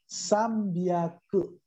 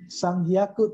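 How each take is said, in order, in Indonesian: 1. Bagian kedua dimulai dengan bunyi b. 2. Bagian kedua dimulai dengan bunyi h. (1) "tapi sambyaku"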